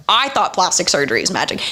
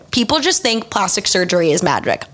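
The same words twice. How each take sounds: First: "I" leaned on, rest of the line quicker; stress on I. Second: Said in the usual way. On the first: Real, not acted. Vlogger admitting their own belief, stress on "I". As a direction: put the weight on "I", then hurry through.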